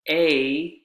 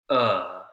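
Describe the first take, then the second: First: The word has its full vowel. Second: The vowel is reduced to a schwa.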